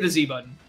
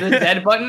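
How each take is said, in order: First: The letter is pronounced 'zee'. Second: The letter is pronounced 'zed'. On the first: The speaker calls it right. "I say the Z button" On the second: The speaker calls it wrong. "that's so weird"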